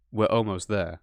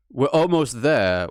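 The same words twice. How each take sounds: First: Said in the usual way. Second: "almost" drawn out, slower and louder; stress on almost. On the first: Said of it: "was literally". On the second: Shown as a demonstration. Quoting the game's line back with weight on "almost". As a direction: lean hard on "almost" like a broken promise. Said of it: "So I guess that the "we're almost there".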